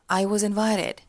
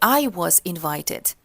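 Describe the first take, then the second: First: Said in a very relaxed way. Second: Said in a tense, not relaxed way. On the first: The speaker calls it right. "Очень расслабленно" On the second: The speaker calls it wrong. "Не"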